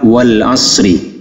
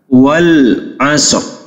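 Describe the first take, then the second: First: The final r is followed by a vowel. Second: The final r is heard lightly without a vowel. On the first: The word is read in full without stopping. "kalau dibaca lengkap" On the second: The reciter stops on this word. "huruf akhirnya itu tetap dibaca tetapi tidak penuh"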